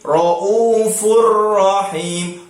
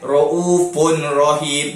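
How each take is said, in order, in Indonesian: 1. Bunyi n menyatu ke dalam r, tanpa bunyi sengau. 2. Bunyi n yang jelas terdengar sebelum r. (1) "Jadi kita masukkan ra itu" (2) "jangan jangan raufun rahim"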